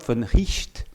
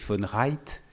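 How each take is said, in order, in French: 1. Le nom n'est pas prononcé à l'anglaise. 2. Le nom est prononcé à l'anglaise. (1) "je le prononce comme" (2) "si on le prononce à l'anglaise"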